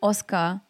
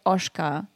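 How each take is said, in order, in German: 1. Der Name wird mit einem normalen deutschen Akzent gesprochen. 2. Der Name wird mit einem portugiesischen Akzent gesprochen.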